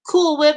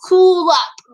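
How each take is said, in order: First: The name is said like 'cool whip'. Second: The name is said like 'cool up'. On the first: The speaker calls it wrong. "people call her like Cool Whip" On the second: The speaker calls it right. "nope, it's cool up"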